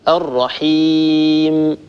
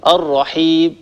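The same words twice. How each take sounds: First: الرحيم slow, the final m held fully nasal; الرحيم with a long, closed, humming m; held final meem. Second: الرحيم with the final m cut off, nearly a b; الرحيم ending in a clipped b-like stop; clipped final meem. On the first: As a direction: sustain the meem of الرحيم, no cutoff. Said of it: "إنما الصواب". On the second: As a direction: chop the meem at the end of الرحيم. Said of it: "هكذا يبتر صوت الميم". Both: Shown as a demonstration.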